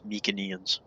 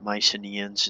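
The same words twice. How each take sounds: First: The c is said without an s sound. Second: The c is said as an s sound. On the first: The speaker calls it right. "it's Mycenaeans" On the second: The speaker calls it wrong. "It's not Mycenaeans"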